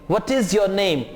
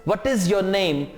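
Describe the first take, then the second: No difference in how they are said.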